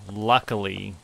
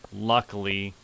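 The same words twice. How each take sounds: The two takes are said the same way.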